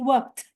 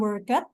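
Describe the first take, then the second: First: The ending is only a short t sound. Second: The ending is said as an extra syllable. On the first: The speaker calls it right. "ujungnya itu seperti bunyi T" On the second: The speaker calls it wrong. "sebetulnya ini bacanya bukan worked"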